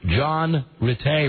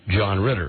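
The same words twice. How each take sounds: First: The name is said in a non-American accent. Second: The name is said in an American accent.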